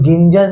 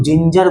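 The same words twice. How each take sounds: First: "गिंजर" with hard g at the start; wrong hard G. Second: "जिंजर" with soft j sound at the start; soft G in ginger. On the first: Teacher showing children what to avoid, "गिंजर" with hard g. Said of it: "गिंजर नहीं बोलेंगे". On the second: Teacher applying the magic G rule, "जिंजर" with soft j. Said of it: "इसे हम लोग जिंजर बोलेंगे". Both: Shown as a demonstration.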